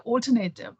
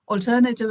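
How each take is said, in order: First: It is said with an Indian pronunciation. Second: It is said with the standard pronunciation. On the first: The speaker calls it wrong. "We say alternative" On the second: The speaker calls it right. "alternative is the correct pronunciation"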